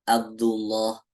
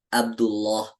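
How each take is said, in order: The two takes are said the same way.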